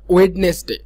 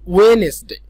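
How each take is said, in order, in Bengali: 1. মাঝখানের d উচ্চারিত হয়। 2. মাঝখানের d নীরব।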